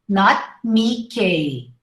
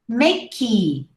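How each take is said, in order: First: The word ends with an 'ay-ee' sound. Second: The word ends with a plain 'ee' sound. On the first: The speaker calls it wrong. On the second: The speaker calls it right. "We only pronounce the Y"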